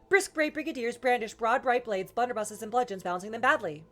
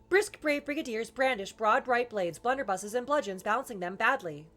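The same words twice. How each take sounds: First: It is said quite fast, quicker than before. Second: It is said somewhat faster than ordinary speech. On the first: "more fasterer"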